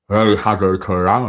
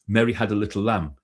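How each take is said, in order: First: It is spoken with the mouth pulled sideways. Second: It is spoken plainly and clearly.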